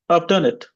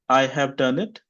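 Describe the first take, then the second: First: The h in have is dropped. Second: The h in have is clearly pronounced. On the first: "Option B" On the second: "Option A"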